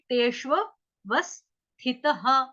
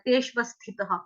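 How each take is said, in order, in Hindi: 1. 'v' ध्वनि लगातार दो बार बोली जाती है। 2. 'v' ध्वनि केवल एक बार बोली जाती है। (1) "दो व हो गए रिपीट" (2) "यहाँ से गलती से एक व बोला जाता है"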